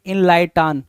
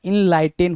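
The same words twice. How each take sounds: First: इनलाइटान said with a long open 'aan' at the end, in-lai-taan; mock the misspelling as इनलाइटान, ending on 'taan'; wrong pronunciation. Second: इनलाइटेन said with a short 'en' at the end, in-lai-ten; correct pronunciation. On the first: Teacher voicing students' misspelling as इनलाइटान with a final 'aan'. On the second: Teacher correcting students, saying इनलाइटेन with a final short 'en'. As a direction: land the 'ten' of इनलाइटेन, not 'taan'. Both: Shown as a demonstration. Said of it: "इनलाइटान जैसा कुछ नहीं होता".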